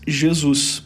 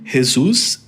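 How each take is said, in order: First: The name is said with Portuguese pronunciation. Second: The name is said with Spanish pronunciation. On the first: "em português" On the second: "em espanhol"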